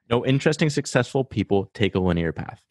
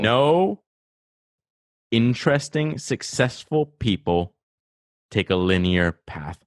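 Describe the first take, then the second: First: It is said at a faster pace. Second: It is said at a slower pace.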